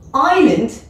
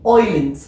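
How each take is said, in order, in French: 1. Ça commence par le son 'eye'. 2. Ça commence par le son 'oy'.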